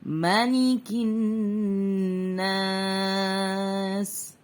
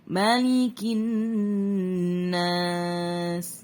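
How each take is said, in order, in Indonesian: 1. Vokal setelah m dibaca pendek. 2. Vokal setelah m dibaca pendek.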